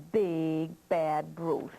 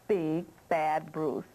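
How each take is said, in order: Both takes have the same delivery.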